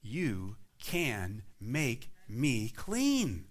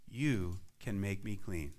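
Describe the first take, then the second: First: "You can make me clean" very slow, leaning on "clean"; a slow, certain declaration of faith; slow faith-filled statement. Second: "you can make me clean" drawn out softly; a quiet, trusting plea; slow faithful plea. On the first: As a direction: stretch every word, land hard on "clean". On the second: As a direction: linger on "you", low and slow. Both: Shown as a demonstration. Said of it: "Do you hear the faith in that statement?".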